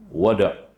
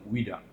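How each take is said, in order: First: The first vowel is an 'a' sound. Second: The first vowel is an 'i' sound. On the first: This is how Egyptians say it. "Kalau orang Mesir dia panggil dengan wada" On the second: This is how Iraqis or Saudis say it. "kalau orang Iraq ataupun orang Saudi panggil dengan wida"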